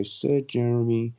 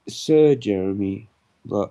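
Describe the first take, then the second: First: Slow, stately title read; a hint of a herald announcing; pompous title, lighter. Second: Slow, loud, grand title; pompous sign reading. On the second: Pretend. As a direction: announce yourself like nobility. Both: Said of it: "I'll sir myself".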